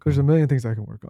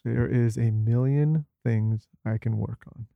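First: It is said smoothly without gaps between words. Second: It is said with gaps between words.

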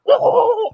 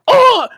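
First: It is a guttural grunt sounding underwater. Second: It is a plain hit grunt.

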